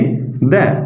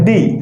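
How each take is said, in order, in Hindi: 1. स्वर एक छोटी 'uh' ध्वनि है। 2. स्वर एक लंबी 'ee' ध्वनि है। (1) "तो हम इसे प्रोनाउंस करेंगे द" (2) "तो हम इसे प्रोनाउंस करते हैं दी"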